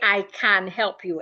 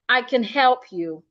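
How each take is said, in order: First: The word 'can' is said in its full form. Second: The word 'can' is reduced with a weak vowel. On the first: The speaker calls it wrong. "Don't say" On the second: The speaker calls it right. "it becomes can"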